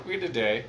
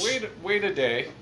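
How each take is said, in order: First: Said in the usual way. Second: "wait, wait a day" with "wait" pushed up and rising; emphatic wait. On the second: Shown as a demonstration. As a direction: lean hard on the first "wait".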